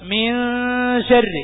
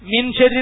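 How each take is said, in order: First: The n is hidden and blends into sh. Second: The n is pronounced clearly before sh. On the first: The speaker calls it right. "മിൻ ശരി എന്ന് വേണം ഓതാൻ" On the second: The speaker calls it wrong. "അങ്ങനെ മിൻ ശരി എന്ന് പറയാൻ പറ്റുമോ? ഇല്ല"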